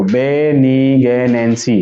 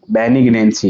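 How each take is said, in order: First: Slow, lower, stretched "बेनिग्नेंसी"; syllable by syllable. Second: Said in the usual way. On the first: Shown as a demonstration. Teacher telling students to look, slowly in syllables. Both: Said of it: "इधर देखो".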